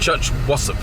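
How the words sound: It is said imitating another person's pronunciation.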